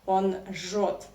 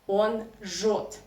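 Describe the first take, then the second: Both takes have the same delivery.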